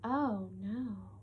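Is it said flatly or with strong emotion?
flatly. It is said flatly, without emotion.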